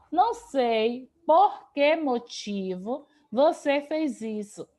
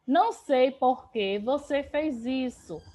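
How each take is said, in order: First: Drawn out slowly so students catch the inserted word; teacher slowing down to show where "motivo" goes after "por que"; slow, deliberate example. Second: Said in the usual way. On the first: Shown as a demonstration. Teacher spells out the example slowly for students, deliberate pace. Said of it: "coloque a palavra motivo depois do porquê". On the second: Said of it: "Então, perceba".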